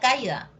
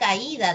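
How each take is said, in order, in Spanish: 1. El acento cae en la primera sílaba. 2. El acento cae en la segunda sílaba. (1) "Si yo no le pongo tilde, diría caída" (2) "ahí no diría caída"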